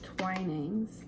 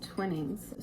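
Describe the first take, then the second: First: The first syllable sounds like 'twine'. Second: The first syllable sounds like 'twin'. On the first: The speaker calls it right. "I think it's Twinings" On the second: The speaker calls it wrong. "I've been saying Twinnings"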